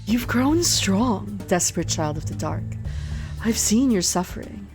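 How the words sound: It is read in a put-on character voice.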